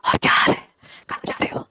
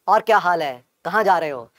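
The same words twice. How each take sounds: First: It is said in a breathy, leaky voice. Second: It is said in a clear, normal voice.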